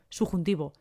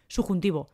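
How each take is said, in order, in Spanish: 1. Se dice rápido, con el sonido b omitido. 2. Se dice rápido, con el sonido b omitido.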